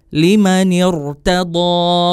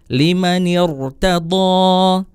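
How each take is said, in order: No difference in how they are said.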